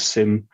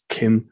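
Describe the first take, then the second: First: The word begins with an S sound. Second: The word begins with a hard K sound. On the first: "but maybe it's SIM" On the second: "which I always used to sort of pronounce as KIM"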